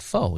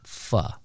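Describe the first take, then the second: First: The vowel is not an 'uh' sound. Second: The vowel is an 'uh' sound. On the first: The speaker calls it wrong. "I said pho. He's like, yeah, that's what I thought too" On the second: The speaker calls it right. "F is in fan, and the O is pronounced like uh in butter"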